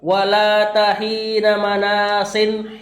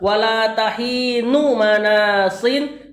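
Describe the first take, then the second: First: The word tahin ends in an 'a' vowel. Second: The word tahin ends in a 'u' vowel. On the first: The noun is the predicate of the negation. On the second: The noun is the subject with an omitted predicate.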